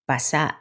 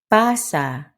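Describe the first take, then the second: First: "Pasa" short, with clipped final SA; quick PA, then stop short on SA in "Pasa"; stress on last syllable. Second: "Pasa" with long, stressed PA; stress on first syllable. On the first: Teacher drilling learners to repeat, "Pasa" with short, stressed last syllable. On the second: Teacher drilling learners to repeat, "Pasa" stressed on first syllable. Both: Shown as a demonstration. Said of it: "Stress and rhythm".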